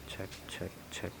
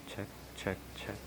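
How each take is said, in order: The two takes are said the same way.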